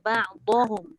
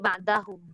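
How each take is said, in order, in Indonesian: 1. Bunyi d itu tebal. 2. Bunyi d itu nipis.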